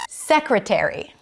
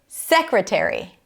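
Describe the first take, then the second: First: The stress is on the first syllable. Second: The same.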